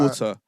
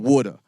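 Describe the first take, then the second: First: The t is pronounced as a clear t. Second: The t is said in an American way. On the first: "instead of water" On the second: "Americans be like water"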